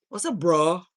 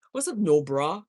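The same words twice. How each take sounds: First: Said in the usual way. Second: Teasing twist on bro, said with a grin; playful pun greeting. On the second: Shown as a demonstration. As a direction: tease the greeting into no bra.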